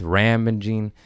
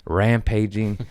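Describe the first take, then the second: First: "rampaging" slurred as rambaging, unsure of the word; "rampaging" tripped over, b for p; stumbled word. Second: "rampaging" said again clearly as ram-pay-jing; "rampaging" repeated carefully and correctly; corrected word. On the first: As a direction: fumble "rampaging" into a mushy rambaging. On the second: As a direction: fix the word: crisp "rampaging" with a long a. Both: Retold or imitated. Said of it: "whatever that word is".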